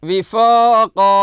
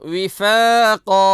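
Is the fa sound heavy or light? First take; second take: heavy; light. First: The fa sound is heavy and full-mouthed. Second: The fa sound is light and thin. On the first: The speaker calls it wrong. "ഫോ ഫോ ഫോ പറയരുത്" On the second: The speaker calls it right. "ഫ ഫ ഫ പറയണം"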